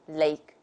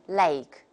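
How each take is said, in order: First: The vowel has a standard British quality. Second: The vowel has an Australian-like quality. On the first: The speaker calls it right. "both the British model and the American model will take lake and name" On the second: The speaker calls it wrong. "Some people tend to say lake name ... a little bit like Australian"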